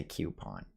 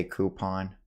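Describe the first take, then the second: First: "coupon" as KYOO-pon; alternative pronunciation. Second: "coupon" as KOO-pon; own pronunciation. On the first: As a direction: say "coupon" starting like cue. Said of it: "but I might say". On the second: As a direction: say "coupon" with no Y glide. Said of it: "I guess I would say". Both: Shown as a demonstration.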